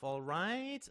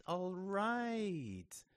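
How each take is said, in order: First: ALL RIGHT pitched high, rising at the end; rising question. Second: ALL RIGHT drawn out high, then falling; falling concession. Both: A narrator's reading. Gives in, asks then concedes.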